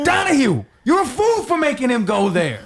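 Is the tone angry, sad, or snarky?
angry. It sounds angry.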